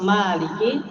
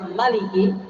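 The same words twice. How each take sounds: First: The first vowel 'ma' is long. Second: The first vowel 'ma' is short. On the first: This is the reading with the alif. "Imam Hafiz" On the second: This is the reading without the alif. "Imam Ibnu Katsir contohnya"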